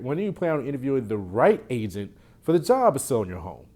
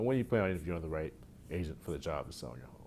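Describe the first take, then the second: First: It is said excitedly, with enthusiasm. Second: It is said flatly, without enthusiasm.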